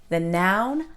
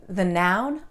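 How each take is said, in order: Both takes have the same delivery.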